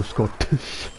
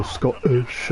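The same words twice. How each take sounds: First: Scottish with a crisp, released T; slow down and sound the T in "Scottish"; fully sounded Scottish. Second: Scottish with the T swallowed; glottal-stop Scottish. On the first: Streamer showing what she doesn't say, Scottish with hard T. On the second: Streamer showing her own accent, Scottish with T dropped. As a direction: say "Scottish" with a catch in place of the T. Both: Shown as a demonstration. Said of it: "I don't go Scottish".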